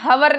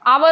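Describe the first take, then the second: First: The word starts with an audible h sound. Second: The word starts directly with a vowel. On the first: The speaker calls it wrong. "हवर नहीं होता है" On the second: The speaker calls it right. "आवर होता है"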